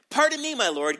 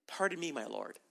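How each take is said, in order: First: Raised, louder protesting "Pardon me"; complaining. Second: Softer, lowered, humble "Pardon me"; respectful and humble. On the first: Gideon objecting to the angel, raised and complaining. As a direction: push back with a raised voice. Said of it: "He's whining". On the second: Gideon humbly answering the Lord, softer and meek. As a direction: say it meekly, backing down. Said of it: "He's getting a little more respectful now". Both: Acted.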